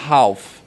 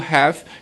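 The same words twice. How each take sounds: First: The word is said with a British accent. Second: The word is said with an American accent. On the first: "É uma pronúncia mais britânica" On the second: "que é mais a pronúncia americana"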